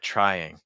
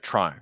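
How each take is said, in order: First: The two vowels are clearly separated. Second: The two vowels run together without separation. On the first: "more a clear separation between the the vowels, like trying" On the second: "Because I hear like trying"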